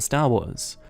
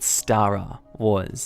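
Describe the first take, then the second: First: It is said plainly, with no extra vowel. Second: An extra vowel is added after "Star".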